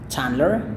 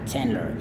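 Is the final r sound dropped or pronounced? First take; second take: dropped; pronounced. First: The final r sound is not pronounced. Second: The final r sound is clearly pronounced. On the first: "Kalau Anda beraksen British, tentunya adalah Chandler, tapi R-nya itu nggak bunyi ya" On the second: "Tapi kalau Anda beraksen Amerika, itu adalah Chandler"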